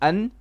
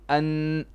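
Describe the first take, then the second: First: The final n sound is short. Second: The final n sound is held long. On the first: The speaker calls it wrong. "we say not an" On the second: The speaker calls it right. "it will be an because there is now two shadda, sorry, two noons"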